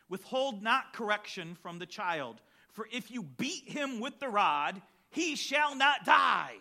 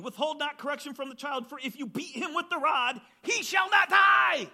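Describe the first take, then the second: First: Reading steadily, then shouting the last line; preached verse building to a shout. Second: Fervent preached verse. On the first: Preacher reading Proverbs to parents, rising to a shout. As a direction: build the verse and bang out the ending. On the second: Preacher rereading Proverbs to the congregation, fervent shout. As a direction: preach it hard, climax on the final words. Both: Acted.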